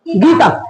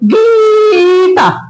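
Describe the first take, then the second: First: The long vowel is only slightly lengthened. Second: The long vowel is stretched out very long. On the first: The speaker calls it right. "गीता में थोड़ा सा long जा रहा है" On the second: The speaker calls it wrong. "एकदम लंबा खींचेंगे गीता, ऐसा नहीं करेंगे"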